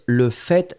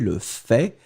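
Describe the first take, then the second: First: The final T of fait is pronounced. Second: The final T of fait is silent. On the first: "je prononce le fait, je prononce le T" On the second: "Certaines personnes ne prononcent pas le T"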